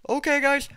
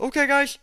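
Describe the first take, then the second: No difference in how they are said.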